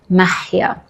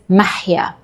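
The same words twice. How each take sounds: First: The h sound in the name is harsh. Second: The same.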